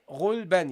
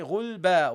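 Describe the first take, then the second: First: The word ends with an added n sound. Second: The word ends in a long plain vowel. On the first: The speaker calls it wrong. "You don't say ghul, ban" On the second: The speaker calls it right. "You say ghul, ba"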